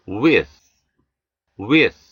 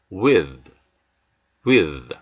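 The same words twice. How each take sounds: First: With ending in voiceless th. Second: With ending in voiced th. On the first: Teacher modelling voiceless th in with. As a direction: breathe out the th in with. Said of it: "무성음". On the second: Teacher modelling voiced th in with. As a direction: buzz the th in with. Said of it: "유성음 with". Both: Shown as a demonstration.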